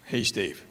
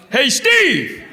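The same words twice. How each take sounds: First: A quiet murmured Hey Steve; low, soft aside. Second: High, loud call across a cinema; yelling out. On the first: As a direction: say it under your breath in the cinema. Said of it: "I go". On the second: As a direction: yell the name to a stranger. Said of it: "I just yell out". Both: Retold or imitated.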